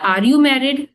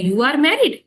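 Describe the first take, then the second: First: "Are you married" as an ordinary inverted question, raised pitch; inversion question. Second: "You are married" climbing high on "married"; questioning intonation. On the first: Teacher contrasts question forms for students, inversion question on "Are you married". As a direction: ask "Are you married" with the verb first. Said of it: "एक तो होता है". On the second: Teacher shows students the tone change, rising high on "married". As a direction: turn the statement into a question by raising "married". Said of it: "तो वहाँ पे tone change कर रहे हैं".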